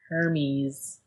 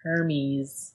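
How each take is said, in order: First: It is pronounced like the Greek god's name. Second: It is pronounced like the Greek god's name.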